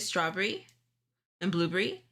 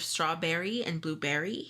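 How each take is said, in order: First: The vowels are said in an unusual, personal way. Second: The vowels are said in the common way. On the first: "I say strawberry and blueberry" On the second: "instead of strawberry and blueberry"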